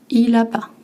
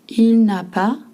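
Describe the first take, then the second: First: The 'ne' is dropped in a reduced form. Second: The full form is said with 'ne'.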